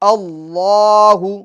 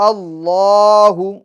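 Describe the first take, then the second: Both takes have the same delivery.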